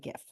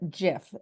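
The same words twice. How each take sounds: First: The word begins with a hard G sound. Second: The word begins with a soft J sound. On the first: The word is said as it is spelled. "I say there's a G in it" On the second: This is how the term's creator says it. "as the person who came up with the term calls it"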